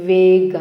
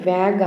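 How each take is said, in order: First: The vowel sounds like the one in 'day'. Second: The vowel sounds like the one in 'bag'. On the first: The speaker calls it right. "వేగ్ అనాలి" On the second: The speaker calls it wrong. "దాన్ని వ్యాగ్ అనకూడదు"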